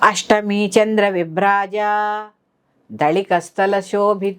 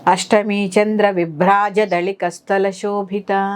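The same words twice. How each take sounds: First: The vowel of 'ja' is drawn out long. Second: The vowel of 'ja' is kept short. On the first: The speaker calls it wrong. "దీర్ఘం ఇచ్చేస్తారు" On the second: The speaker calls it right. "జాకి దీర్ఘం ఉండదు"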